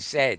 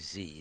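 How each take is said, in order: First: The letter is said the British way, zed. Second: The letter is said the American way, zee.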